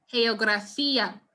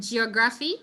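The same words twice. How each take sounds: First: "geografía" opening with a soft h, heografía. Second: "geography" with a zh sound at the start; English-style g. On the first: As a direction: breathe the g of "geografía" as h. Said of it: "you pronounce it with the soft G". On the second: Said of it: "close to its English equivalent". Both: Shown as a demonstration.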